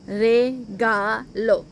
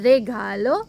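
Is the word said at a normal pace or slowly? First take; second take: slowly; normal. First: The word is said slowly, syllable by syllable. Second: The word is said at a normal pace.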